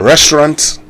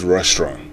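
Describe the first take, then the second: First: "restaurant" with a sounded final T; firm, raised "restaurant" closing on T; English pronunciation. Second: "restaurant" with the final T dropped; French-style pronunciation. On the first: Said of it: "still pronounce it the English way". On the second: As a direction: end "restaurant" on a nasal vowel, no T. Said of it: "and not the original way". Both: Shown as a demonstration.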